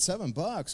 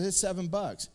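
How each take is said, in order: First: Surprised echo. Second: Said in the usual way. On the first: Retold or imitated. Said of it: "I said". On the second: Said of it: "And he said".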